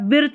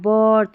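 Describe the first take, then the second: First: The vowel sounds like short ih. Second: The vowel sounds like er. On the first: The speaker calls it wrong. "इसको बायर्थ या बिर्थ नहीं पढ़ेंगे" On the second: The speaker calls it right. "यहाँ पर आई को हम अ पढ़ेंगे"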